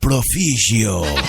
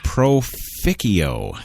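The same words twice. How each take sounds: First: The name is said in an exaggerated Italian accent. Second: The name is said in a plain English accent. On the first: "more more Italian than the Italian that it is" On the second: "maybe I'm I'm actually pronouncing that wrong"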